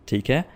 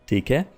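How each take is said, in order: Both takes have the same delivery.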